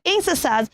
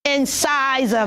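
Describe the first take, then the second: First: Incisors as "IN-suh-saz"; weak middle syllable in incisors, no SIGH; wrong pronunciation. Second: Incisor as "in-SIGH-zer"; correct pronunciation. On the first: Teacher warning children off a mistake, mispronounced incisors. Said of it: "So do not say incisors". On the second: Teacher showing what to say, careful incisor. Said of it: "You should say incisor". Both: Shown as a demonstration.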